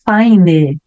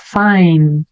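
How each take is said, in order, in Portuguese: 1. Uma vogal extra é pronunciada depois do n final. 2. A palavra termina no n, sem vogal. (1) "aqui não vou falar fine" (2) "Não vou pronunciar a letra I, a letra E"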